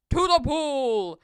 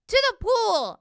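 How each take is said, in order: First: Loud, drawn-out rallying call; big slow shout to the crew; firemen's yell. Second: High, loud excited shout; high-pitched urgent holler; boy's yell. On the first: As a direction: yell it slowly as a burly fireman. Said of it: "yelled the firemen". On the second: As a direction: yell it out high as an eager boy. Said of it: "I yelled". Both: A narrator's reading.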